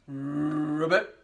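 It is said in a big deep voice.

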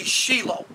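The name is said with a Hebrew pronunciation. This is the original Hebrew form. The speaker calls it right. "the proper Hebraic pronunciation would be Shilo"

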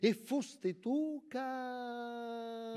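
The phrase trails off, left hanging in suspense. The thought is left unfinished. The speaker calls it right. "Resta sospesa"

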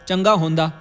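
It is said in a Punjabi accent with 'honda'. The speaker calls it wrong. "ये Punjabi accent है"

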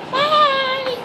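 It is said in a put-on cute voice.

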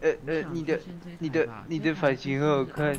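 It is said hesitantly, with stumbling repeats.

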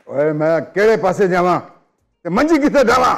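It is said in an angry tone.

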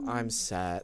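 The words are said in a low, downcast voice. The voice matches the sad meaning of the words. The speaker calls it right. "It takes the cue to lower the levels to go I'm sad"

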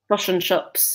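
The vowels are pulled toward a New Zealand sound. "they say fosh and chops"

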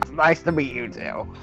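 It is said in a Wario-style cartoon voice. "you worked the Wario laugh"

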